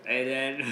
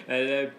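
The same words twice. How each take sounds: The two takes are said the same way.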